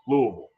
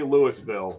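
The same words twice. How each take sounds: First: The syllables are run together, almost one. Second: Each syllable is said separately and clearly. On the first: Marks the speaker as a local. The speaker calls it right. "you can almost make it like one syllable" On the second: Shows the speaker is not from there. The speaker calls it wrong. "do not say Louisville, or they will know that you're not from there"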